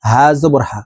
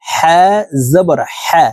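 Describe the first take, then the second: First: হা said as a plain light h, quickly; lower, casual misreading of হা; common mispronunciation. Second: হা drawn out with friction from mid-throat; careful model of হা, squeezed from the middle of the throat; correct mid-throat হা. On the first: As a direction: demonstrate the faulty হা with no mid-throat friction. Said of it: "হার উচ্চারণ এইভাবে পড়ি". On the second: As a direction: teach হা as a long pharyngeal h. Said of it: "হলকের মধ্যখান থেকে হবে". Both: Shown as a demonstration.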